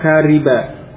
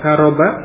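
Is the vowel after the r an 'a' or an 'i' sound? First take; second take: i; a. First: The vowel after the r is 'i'. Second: The vowel after the r is 'a'. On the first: The speaker calls it wrong. "dengan mengkasrah ra'nya dibaca kariba" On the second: The speaker calls it right. "dengan memfathah ra'nya dibaca karoba"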